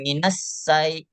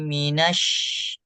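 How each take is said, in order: First: The sh hiss is held back and short. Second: The sh hiss is long and spread out. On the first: The speaker calls it wrong. "Kalau ditahan minas say enggak" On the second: The speaker calls it right. "jangan ditahan"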